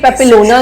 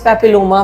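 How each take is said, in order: First: The last syllable is said with an 'n'. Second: The last syllable is said with an 'm'. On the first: The speaker calls it wrong. "ये पेपिलोना नहीं है" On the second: The speaker calls it right. "पेपिलोमा virus है"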